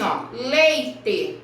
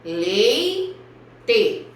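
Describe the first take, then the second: First: Leite with both vowels, lei-te; diphthong said clearly. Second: Leite stretched, vowels drawn apart; syllables shown. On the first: Teacher showing the class the diphthong in leite. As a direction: say leite as one syllable lei with E and I together. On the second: Teacher repeating leite for the children. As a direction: draw out leite slowly. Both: Shown as a demonstration. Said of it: "Se eu falo assim".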